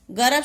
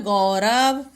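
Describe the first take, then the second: First: गरब with a short "a" after ग; quick first vowel in गरब; misspelt word. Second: गौरव with a long औ after ग; गौरव lower, sounded out as "gau-rav"; corrected word. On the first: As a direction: say गरब without any औ. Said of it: "शब्द नहीं होता". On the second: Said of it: "क्या होता है". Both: Shown as a demonstration.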